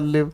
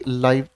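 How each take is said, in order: First: The vowel is a short 'i' sound. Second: The vowel is an 'eye' sound. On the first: The word is used as a verb. "अगर लिव की तरह मैं बात करता हूं तो ये वर्ब है" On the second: The word is used as an adjective. "Adjective की तरह यूज करूंगा तब इसको पढ़ने की प्रोनाउंसिएशन आएगी लाइव"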